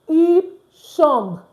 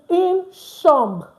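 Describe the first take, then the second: The two takes are said the same way.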